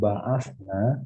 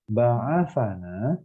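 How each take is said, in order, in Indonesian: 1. Konsonan sebelum 'na' tidak punya vokal. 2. Konsonan sebelum 'na' memakai vokal 'a'. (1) "kami telah membangkitkan. Kaminya subjek" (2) "Tapi kalau di fathah"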